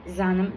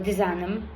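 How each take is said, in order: First: The word begins directly without the prefix syllable. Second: The word begins with a 'di' prefix syllable. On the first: This is how native speakers say it in speech. "people say as zanam" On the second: This is the written, grammatical form. "when we write, we have to write as the zanam"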